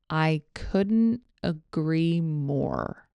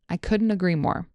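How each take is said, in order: First: The phrase is spoken slowly and carefully. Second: The phrase is spoken at normal conversational speed. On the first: "Here it is slowly" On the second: "Here it is at normal speed"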